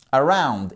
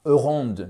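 First: "Around" with the weight on -ROUND; stress on second syllable. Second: "around" stressed on the A, French-style; the wrong way, hit the first syllable. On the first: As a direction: land the accent on "round". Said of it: "un autre accent tonique sur la seconde syllabe". (accent sur la deuxième syllabe de "Around") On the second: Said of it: "et pas around, non". ("around" mal accentué sur la première syllabe) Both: Shown as a demonstration.

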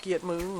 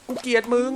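First: Quiet grumble. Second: Loud frustrated cry. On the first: Quiet repeat. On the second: Hates the fishing game. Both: Real, not acted.

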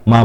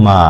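First: মা with a brief aa; short vowel. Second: মা with a lengthened aa; long vowel. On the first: (মা-এর আ হ্রস্ব) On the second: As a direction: hold the vowel in মা. (মা-এর আ দীর্ঘ করে টেনে) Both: Shown as a demonstration. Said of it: "আ কারটা দীর্ঘ করে".

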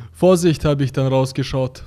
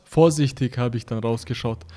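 First: "Vorsicht" read instead of "Vorsichtig", a slip; misread word. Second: "Vorsichtig" read in full with its "-ig" ending; corrected reading. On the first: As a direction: reads "Vorsicht" with the ending dropped. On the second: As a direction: carefully reread as "Vorsichtig". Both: Real, not acted.

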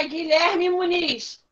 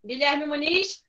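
First: Slow, drawn-out calling of the name; slowly calling a pupil's name. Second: Name asked with a rising end; calling a pupil's name as a question. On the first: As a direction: stretch the name out to call him. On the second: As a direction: ask for him, tune rising at the end. Teacher calling again. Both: Real, not acted.

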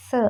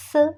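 First: സ് alone, a short isolated hiss; German S sound. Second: സ് said within the sentence as a plain hiss; German S sound. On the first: Teacher modelling the S sound alone. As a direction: give സ് by itself as a model. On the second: Teacher explaining how S is pronounced. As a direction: say സ് as part of the line. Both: Shown as a demonstration. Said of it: "എസിനെ pronounce ചെയ്യുന്നത്".

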